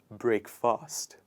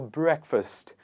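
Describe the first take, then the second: First: The second syllable is a full, stretched 'fast'. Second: The second syllable is reduced to 'fust'. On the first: The speaker calls it wrong. "They stretch it" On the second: The speaker calls it right. "It shortens up and it becomes ust"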